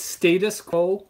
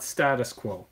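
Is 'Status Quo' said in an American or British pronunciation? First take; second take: British; American. First: It is said with a British pronunciation. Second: It is said with an American pronunciation. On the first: The speaker calls it right. "it's Status Quo ... because they're British" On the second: The speaker calls it wrong. "not Status Quo"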